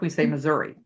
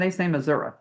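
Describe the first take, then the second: First: It uses the northern pronunciation of the name. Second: It uses the southern pronunciation of the name. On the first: "like up north, we say Missouri" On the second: "But down there, as far as I understand, they say Missouri"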